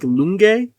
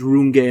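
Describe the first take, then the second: First: The name begins with an L sound. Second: The name begins with an R sound. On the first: This is how other people say the name. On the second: This is how the name is written.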